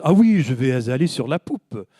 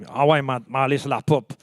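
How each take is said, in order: First: Fancy French accent. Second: Casual Montreal French, words run together; down-to-earth Montreal street French; Montreal French accent. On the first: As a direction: put on a grand, refined French accent. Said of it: "it sounds much l-, fancier in French". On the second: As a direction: say it in everyday Québécois, unfancy. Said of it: "that's not how they talk. They say". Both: Shown as a demonstration.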